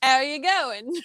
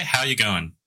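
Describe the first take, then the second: First: Failed Australian accent sliding into Cockney; Cockney-sounding Australian. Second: Natural Australian accent, easy delivery. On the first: Guest copying the host's Aussie phrase, accidentally Cockney accent. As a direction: attempt Aussie, land in Cockney. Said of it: "Now you sound Cockney". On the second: Host showing a friend how to say it, natural Australian accent. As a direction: model it in everyday Aussie. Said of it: "just say, just say". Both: Shown as a demonstration.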